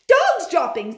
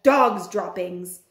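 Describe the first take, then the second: First: High, loud sharp shout; high witch shout. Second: Drawn-out low chant of the words; slow low cry. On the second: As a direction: moan it slowly, low. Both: Acted. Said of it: "they shouted".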